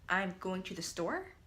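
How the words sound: The voice rises at the end like a question. It asks a question. "I'm asking a question in the second one"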